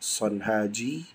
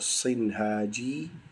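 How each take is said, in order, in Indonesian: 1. Suku kata pertama memiliki vokal a. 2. Suku kata pertama memiliki vokal i. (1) "Boleh dibaca Sanhaji" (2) "boleh dibaca Sinhaji"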